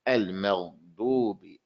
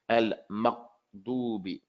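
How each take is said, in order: First: The gh sound is continuous, with air flowing through. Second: The gh sound is stopped, cutting off the airflow. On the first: The speaker calls it right. "put it up there gently, but don't stop the flow of the sound" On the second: The speaker calls it wrong. "you're raising your tongue too hard"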